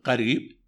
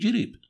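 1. تبدأ الكلمة بصوت 'q'. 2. تبدأ الكلمة بصوت 'j'. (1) "بدل من يقول قريب" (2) "في الخليج ... يقول جريب"

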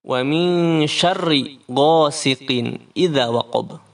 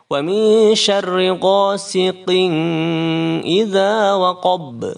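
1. N sebelum idza dibaca jelas. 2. N sebelum idza didengungkan dan tersembunyi. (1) "Ghasiqin kan itu idhar halqi" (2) "dibaca ikhfa"

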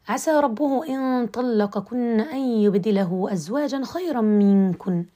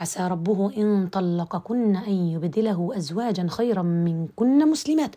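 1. يقع الوقف بعد كلمة minkunna. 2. يقع الوقف بعد كلمة muslimat. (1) "فهذا هو الابتداء الصحيح والوقف الصحيح" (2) "لا أقف في هذا الوقف"

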